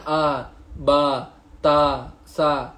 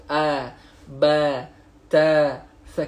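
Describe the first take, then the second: First: "a, ba, ta, sa" with open ah vowels; Malay-style vowels. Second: "a, ba, ta, sa" with fronted ae vowels; smiling Arabic vowels. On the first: Teacher shows how Malays read, "a, ba, ta, sa" with open ah. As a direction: say "a, ba, ta, sa" unsmiling, plain Malay ah. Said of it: "Itu orang Melayu". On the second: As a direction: say "a, ba, ta, sa" through a smile. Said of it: "iaitu dia kena senyum". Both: Shown as a demonstration.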